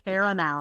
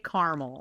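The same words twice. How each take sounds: First: Caramel is said in a fancier, fuller way. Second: Caramel is said in a plain, everyday way. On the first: It sounds more refined than ordinary folks. The speaker calls it wrong. "it's fancier than we are" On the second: It is how down-home people say it. The speaker calls it right. "like normal"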